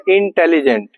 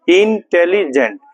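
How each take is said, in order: First: Said in the usual way. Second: intelligent slowly split as इन, टे, लि, gent; slow syllable-by-syllable intelligent for counting; broken into syllables. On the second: Shown as a demonstration. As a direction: read intelligent with a break after each syllable. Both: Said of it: "break मतलब रुक रुक कर पढ़ना".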